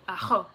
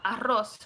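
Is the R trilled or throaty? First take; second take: throaty; trilled. First: The R is a throaty, Dutch-like sound. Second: The R is a tongue trill.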